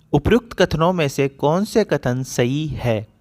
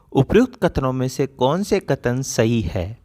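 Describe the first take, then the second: Both takes have the same delivery.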